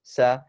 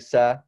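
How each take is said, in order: Both takes have the same delivery.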